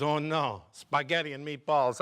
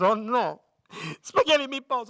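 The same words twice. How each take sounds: First: Put-on mildly dismayed Italian accent; restrained Italian-accented dismay; Italian worker, mild dismay. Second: Put-on loud, high Italian-accented horror; hammed-up Italian dismay, building; Italian worker, horrified. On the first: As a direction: grumble in an Italian accent without raising the voice. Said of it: "Italian opens his lunchbox". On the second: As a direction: cry out in despair with an Italian accent. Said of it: "Finally, the Italian's shaking up his lunchbox".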